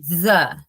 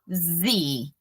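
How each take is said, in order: First: It is said short, like 'thuh'. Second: It is said long, like 'thee'. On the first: The next word starts with a consonant sound. "Som de consoante, the" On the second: The next word starts with a vowel sound. "som de vogal, the"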